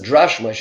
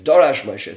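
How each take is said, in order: First: The first word is said as one syllable. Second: The first word is said as two syllables. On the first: The speaker calls it wrong. "some people mispronounce this as Drash Moshe" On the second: The speaker calls it right. "It's Dorash Moshe"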